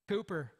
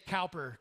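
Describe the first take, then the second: First: The first syllable sounds like 'coo'. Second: The first syllable rhymes with 'how'. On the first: The speaker calls it right. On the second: The speaker calls it wrong. "I was going to say it wrong. I'm glad you did that. I was going to say Cowper, because it looked like Cowper"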